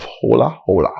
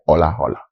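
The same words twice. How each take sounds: First: "Hola Hola" with the H sounded. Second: "Hola Hola" with the H dropped, like "ola ola"; silent H. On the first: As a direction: say "Hola Hola" with a breathed H starting each word. Gives two pronunciations of show name. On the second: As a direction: say "Hola Hola" starting on the O. Alternative pronunciation of show name. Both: Shown as a demonstration.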